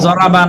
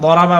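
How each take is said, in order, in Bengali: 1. প্রথম ব্যঞ্জনটি j ধ্বনি। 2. প্রথম ব্যঞ্জনটি d ধ্বনি। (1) "জ উচ্চারণই করি আমরা, যেরকম জরাবা" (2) "অ্যারাবিয়ান যারা ওনারা দরাবা বলে"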